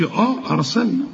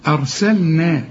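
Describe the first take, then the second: First: أرسلنا opened with a long, heavy "aah" before it; mock the wrong heavy hamza; heavy drawn-out hamza. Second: أرسلنا starting with a light, thin hamza. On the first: Teacher mimics students mispronouncing أرسلنا. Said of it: "ما تقولش آه أرسلنا". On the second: Teacher shows the correct light hamza in أرسلنا. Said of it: "رقق الهمزة". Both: Shown as a demonstration.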